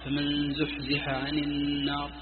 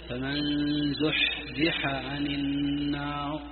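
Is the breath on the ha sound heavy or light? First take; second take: light; heavy. First: The ha sound has a light, soft breath. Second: The ha sound has a heavy, exaggerated breath. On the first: The speaker calls it right. "سمعتم همسي" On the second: The speaker calls it wrong. "ما في حاجة تشديد"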